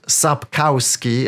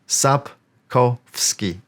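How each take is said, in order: First: It is pronounced the way Americans commonly say it. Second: It is pronounced with the native Polish sounds. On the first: The speaker calls it wrong. "not Sapkowski, at, as many Americans uh, say" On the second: The speaker calls it right. "his surname is Sapkowski"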